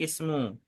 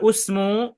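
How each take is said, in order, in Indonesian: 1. Kata ini diawali vokal i. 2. Kata ini diawali vokal u. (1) "tapi ismu" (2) "Jadi tidak usmu"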